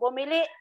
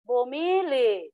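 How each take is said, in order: First: Stress on the last syllable, ending in glottal stop. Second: Stress on second-to-last syllable, no final glottal stop. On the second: "malumay na to"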